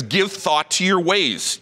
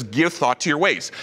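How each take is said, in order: First: Slow, weighty reading of the verse; solemn scripture reading. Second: Said in the usual way. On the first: Shown as a demonstration. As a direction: lay out each word like holy writ. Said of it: "Now this is what the Lord Almighty says". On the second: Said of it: "Lord Almighty says".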